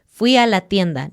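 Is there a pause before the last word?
no. It is said as one unbroken phrase. The speaker calls it right. "Es una idea completa"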